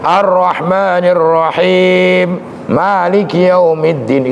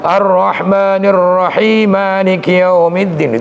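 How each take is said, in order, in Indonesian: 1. Ada berhenti setelah Rahim. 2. Rahim langsung disambung ke Maliki tanpa berhenti. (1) "itu kan berhenti" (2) "itu kan namanya wasol"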